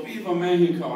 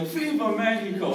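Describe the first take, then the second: First: Louder rally shout from the parade; marcher's call. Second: Chanted, higher, louder eager cry. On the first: Marcher calling to the crowd, a louder rally shout. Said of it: "one of them would go". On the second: Comedian joining the parade chant, higher and louder. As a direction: join the chant with misplaced gusto. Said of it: "And I'd be like". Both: Retold or imitated.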